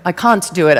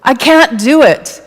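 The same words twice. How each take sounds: First: CAN'T with a broad British "ah"; playful British accent, lower and unhurried. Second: Said in the usual way. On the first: Pretend. Speaker jokily repeating an audience member's self-doubt, in a British accent. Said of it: "I gotta put on my British accent". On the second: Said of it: "put on my British accent".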